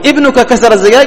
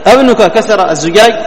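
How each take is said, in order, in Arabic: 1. الكلمة الأولى تبدأ بصوت 'i'. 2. الكلمة الأولى تبدأ بصوت 'a'. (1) "يعني خلاص هو الذي كسر الزجاج" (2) "هنا إيش؟ استفهم"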